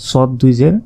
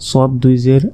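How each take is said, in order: The two takes are said the same way.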